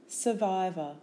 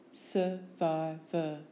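First: Said in the usual way. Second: Slow "Survivor" as sur, vi, vor; syllable by syllable. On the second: Shown as a demonstration. Teacher giving syllables for spelling, Survivor slowly in beats. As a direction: break Survivor into three separate beats.

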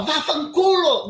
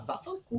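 First: Slow, loud, furious Vá fanculo! with fanculo hit hard; angry shout. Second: Vá fanculo. said high and soft, light and dismissive; softer tone. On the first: Showing the interviewer how she did not say it, as a loud shout. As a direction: bark out Vá fanculo! as a slow yell. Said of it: "mas eu não falava ... Não. Eu falava". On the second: Showing the interviewer how she really said it, softly and lightly. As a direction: toss off Vá fanculo. lightly under the breath. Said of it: "o tom é diferente". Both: Shown as a demonstration.

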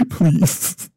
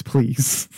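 First: Laughing, higher and louder please. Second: Said in the usual way. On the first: Real, not acted. Laughing as she begs friends not to tease her. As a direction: giggle through a begging please. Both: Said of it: "please don't make fun of me".

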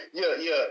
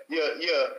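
No difference in how they are said.

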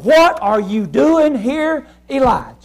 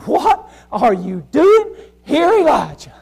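First: Slow, searching question; slow voice of God. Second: Slow, leaning on doing; slow voice of God. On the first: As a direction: ask it slowly, like God calling him out. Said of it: "he said". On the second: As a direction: ask it again, slowly and probing. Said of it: "He said". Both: Acted.

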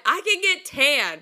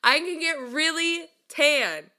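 First: Slow, loud, insisting "can"; insistent. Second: Slower and higher, leaning hard on "get" and "really"; more insistent. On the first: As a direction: lean on "can" to make the point. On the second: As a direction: push it further, stretching "really tan". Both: Real, not acted. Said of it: "we're gonna validate mine".

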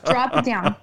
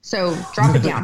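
First: Amused, half-laughed repeat; laughing as she quotes the producer; laughing echo. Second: Producer's voice, pitched lower; mock coach telling her to go lower; dropped low. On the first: Retold or imitated. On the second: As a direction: push the voice down low. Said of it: "I need you down here".

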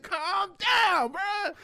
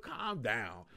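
First: High, loud, hammed-up yell; retold exasperated holler; exasperated shout. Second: Said in the usual way. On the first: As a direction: shout it to snap a friend out of panic. Retold outburst at panicking friend.

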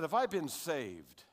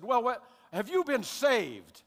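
First: Said in the usual way. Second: Slow, drawn-out, high and louder church question; churchy deacon. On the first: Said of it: "I said". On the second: Retold or imitated. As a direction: stretch every word like a solemn deacon. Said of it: "he does it this way".

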